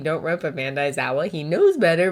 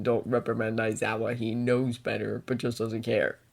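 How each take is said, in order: First: Said in the usual way. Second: Soft, low read of the message; quiet. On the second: Acted. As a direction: say it under your breath. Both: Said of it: "Don't call out Aizawa, you mean?".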